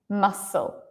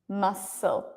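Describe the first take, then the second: Both takes have the same delivery.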